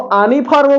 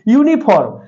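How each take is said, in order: First: The word begins with an 'ah' sound. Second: The word begins with a 'yoo' sound. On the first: The speaker calls it wrong. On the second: The speaker calls it right.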